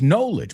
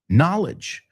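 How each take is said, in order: First: The first syllable sounds like the word 'know'. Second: The first syllable sounds different from the word 'know'. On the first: The speaker calls it wrong. "Entiendo porque decís knowledge, porque ves la palabra know" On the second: The speaker calls it right. "the most important thing is that you say it"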